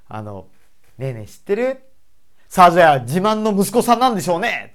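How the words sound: The tone turns angry partway through. "急に感情をガラッと変えて怒ったような口調にする方が難しい"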